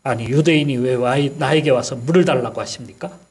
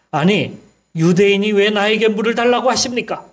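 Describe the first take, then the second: First: A mild, understated snap back; snapping retort. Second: Higher, pointed retort from the Samaritan woman; irritated woman's retort. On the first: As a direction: retell her sharp reply, barely acted. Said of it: "이렇게 쏘아붙였던 거예요". (가볍게 쏘아붙이는 말투) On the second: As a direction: fire it back at the stranger asking for water. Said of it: "이렇게 말을 하는 거였어요". (짜증 섞인 여인의 높은 목소리로 되받아치듯) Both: Retold or imitated.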